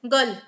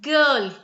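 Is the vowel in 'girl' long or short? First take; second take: short; long. First: The vowel is a short, clipped schwa sound. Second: The vowel is a long, extended er sound. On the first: The speaker calls it wrong. "If I use the uh sound or the schwa sound here, it'll sound like this" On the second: The speaker calls it right. "The sound should be girl"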